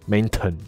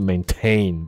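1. 重音在第一个音节。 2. 重音在第二个音节。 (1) "不是maintain" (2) "重音是，或者应该它的发音是maintain"

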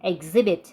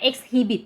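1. เสียง h ไม่ออกเสียง 2. เสียง h ออกเสียงชัด

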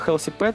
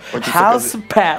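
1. Произносится с обычным русским акцентом. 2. Произносится с показным английским акцентом. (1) "хочется не сказать умная кормушка Healthy Pet" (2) "Хочется козырнуть знанием своего английского языка"

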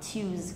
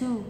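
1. Âm đầu là âm 'ch'. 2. Âm đầu là âm 't' thường. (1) "còn tiếng Anh thì trong từ điển nó vẫn có thể là tiếng Anh ấy thì là choose" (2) "còn tiếng Anh Mỹ sẽ là to, là u"

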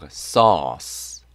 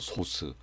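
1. 영어식 모음 소리로 발음합니다. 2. 한국식 음절로 평평하게 발음합니다. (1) "요렇게 발음합니다" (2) "이렇게 발음하시는 분 없죠? ... 이상하죠?"

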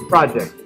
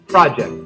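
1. Trọng âm ở âm tiết thứ nhất. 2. Trọng âm ở âm tiết thứ nhất.

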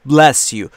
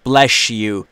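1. "Bless" با صدای "s" واضح تموم میشه. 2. "Bless" با صدای "sh" تموم میشه.

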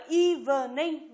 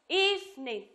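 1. Từ này được đọc với ba âm tiết. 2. Từ này được đọc với hai âm tiết. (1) "chúng ta không đọc là evening" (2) "nó sẽ chỉ có hai âm tiết thôi, là eve và ning"

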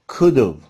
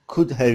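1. Have, kısa bir 'v' sesine indirgenir. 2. have kelimesi tam olarak söylenir. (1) "coulda, could've olarak telaffuz edebiliriz" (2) "Could ve could have için ise"

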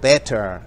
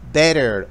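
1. Se pronuncia con acento británico. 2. Se pronuncia con acento americano.

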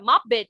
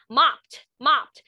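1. Đuôi -ed được phát âm như một âm tiết thêm vào. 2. Đuôi -ed không thêm âm tiết nào.

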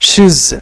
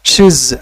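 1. একটা সংকুচিত দল, শেষে z ধ্বনি। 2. একটা সংকুচিত দল, শেষে z ধ্বনি।

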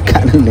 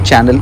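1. शब्द 'k' ध्वनि से शुरू होता है। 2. शब्द 'ch' ध्वनि से शुरू होता है। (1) "ये लोग च को क करके प्रोनाउंस करते हैं" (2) "यूट्यूब चैनल को"

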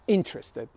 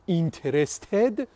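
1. تکیه روی هجای اول است. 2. تکیه روی یک هجای بعدی است. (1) "The stress is on the first syllable" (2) "Interested is not correct"

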